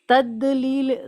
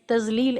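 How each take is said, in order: First: The middle consonant is a d sound. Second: The middle consonant is a light z sound. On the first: "तदलील दाल साउंड के साथ नहीं पढ़ना है" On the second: "हम लोग शायद तजलील ऐसे पढ़ देते थे। ... जो गलत है।"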